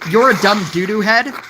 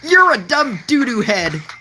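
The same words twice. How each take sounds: First: It is said in his normal voice. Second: It is said in the imitated player's voice.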